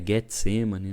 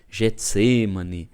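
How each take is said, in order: First: The word starts with a hard G sound. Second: The word starts with a soft G sound. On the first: This is the original Hebrew pronunciation. The speaker calls it right. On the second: This is the Portuguese-adapted pronunciation. The speaker calls it wrong.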